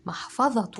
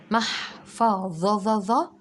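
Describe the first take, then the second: First: Said in the usual way. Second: محفظة drawn out very slowly, each syllable held apart. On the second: Shown as a demonstration. Teacher slowly spells out محفظة for the children. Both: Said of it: "بشويش وركز".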